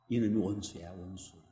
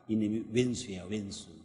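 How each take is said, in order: First: The word is said as standard 'wonsu'. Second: The word is said as dialect 'oensu'.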